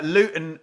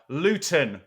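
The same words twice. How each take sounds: First: The middle T sound is dropped or swallowed. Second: The middle T sound is clearly pronounced. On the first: The speaker calls it wrong. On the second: The speaker calls it right.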